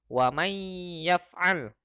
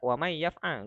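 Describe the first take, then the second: First: The nasal sound is held a little longer. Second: The nasal sound is short, not held. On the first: The speaker calls it right. "kalau ini ditahan dikit" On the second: The speaker calls it wrong. "Jadi tidak wa may yaf'al, enggak"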